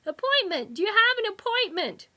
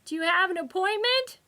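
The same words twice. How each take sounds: First: High, loud, stress on "have"; louder repeat. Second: High, loud clerk's question; shouting receptionist. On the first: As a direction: repeat it louder for someone who can't hear. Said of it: "cupped a hand to his ear". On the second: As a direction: ask it loud and high over the din. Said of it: "the voice shouted over the waiting room din". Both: A narrator's reading.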